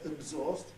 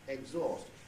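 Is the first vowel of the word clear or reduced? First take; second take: reduced; clear. First: The first vowel is reduced and weak. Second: The first vowel is clear and full. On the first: This is the southern form. "will not say exhaust with vowel number two or number twelve" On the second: This is the northern form. "but he'll say exhaust"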